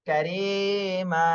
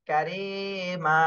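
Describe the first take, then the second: Both takes have the same delivery.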